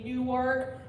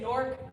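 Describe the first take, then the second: First: The word is said with two syllables. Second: The word is squeezed into one syllable. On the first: The speaker is not from the city. "if you're not from Newark, you say Newark" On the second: The speaker is from the city. "if you're from Newark, you say Nork"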